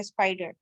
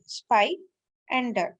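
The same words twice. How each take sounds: First: Said in the usual way. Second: spy, a clear pause, then डर; teacher separating spy from डर; split into syllables. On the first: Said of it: "ये simple word है". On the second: Shown as a demonstration. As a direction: break the word into spy and डर. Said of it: "दो parts में divide कर दिया है".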